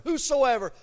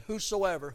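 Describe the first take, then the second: First: "whosoever" pitched higher and louder; emphatic repeat. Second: Said in the usual way. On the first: Real, not acted. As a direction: hammer home "whosoever" with a raised voice. Same word repeated for emphasis.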